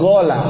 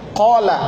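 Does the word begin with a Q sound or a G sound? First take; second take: G; Q. First: The word begins with a G sound. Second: The word begins with a Q sound.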